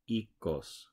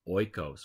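First: The first vowel sounds like 'ee' in seed. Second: The first vowel sounds like 'oy' in oil. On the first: The speaker calls it right. "in Greek, the oi is actually pronounced e, like in seed" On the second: The speaker calls it wrong. "pretty much everybody in the United States pronounces this Greek yogurt as oikos because we're so used to oi being oi"

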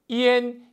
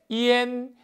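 Both takes have the same delivery.

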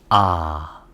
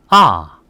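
First: The pitch starts low and dips lower. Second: The pitch drops sharply from high. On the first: "낮은 음에서 낮은 음으로 내려갑니다" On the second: "사성은 일성 높이에서 때려줍니다"

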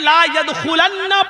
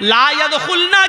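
First: The n sound near the end is doubled. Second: The n sound near the end is single. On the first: They will never ever enter. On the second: They will not enter.

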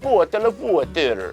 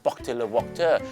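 First: It is spoken with a Russian accent. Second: It is spoken with a French accent. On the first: "รัสเซียหน่อยไหม" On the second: "ไปเจอฝรั่งเศสครับ"

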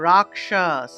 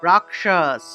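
The two takes are said the same way.

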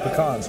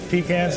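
First: The word is said the Southern US way. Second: The word is said the Northern US way. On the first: "If you're down here in the South, it's pecans" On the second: "If you're in the North, it's pecans"

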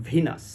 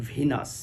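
The two takes are said the same way.

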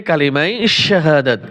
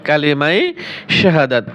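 Both takes have the same delivery.

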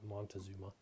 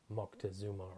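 First: The first syllable ends with an n sound. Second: The first syllable ends with a k sound. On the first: The speaker calls it wrong. "as they say here in the States" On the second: The speaker calls it right. "Moctezuma is the appropriate pronunciation"

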